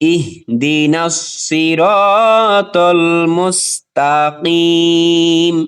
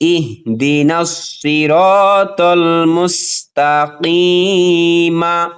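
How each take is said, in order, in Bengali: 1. শেষ শব্দটি সাকিন ব্যঞ্জনে শেষ হয়। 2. শেষ শব্দটি হ্রস্ব স্বরে শেষ হয়।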